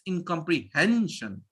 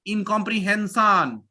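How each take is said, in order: First: It is said with a standard English pronunciation. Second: It is said with a typical Indian pronunciation. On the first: The speaker calls it right. "It's incomprehension" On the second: The speaker calls it wrong. "It's not India incomprehension"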